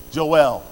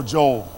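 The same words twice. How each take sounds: First: Joel split in two, "Jo-EL"; careful two-syllable pronunciation. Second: Joel run together as "Jole"; South Philly pronunciation. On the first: Preacher trying the prophet's name again, Joel as two-syllable "Jo-el". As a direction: give Joel a clear second syllable, "el". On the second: Preacher offering the alternative, Joel as one-syllable "Jole". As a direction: drop the second vowel of Joel, "Jole". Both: Shown as a demonstration. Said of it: "that's my South Philly accent".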